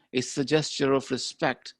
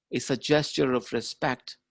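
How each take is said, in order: Both takes have the same delivery.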